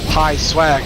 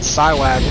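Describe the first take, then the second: First: The name begins with a 'p' sound. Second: The name begins with an 's' sound. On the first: The speaker calls it right. "it's pronounced Pie Swag" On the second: The speaker calls it wrong. "not Psywag"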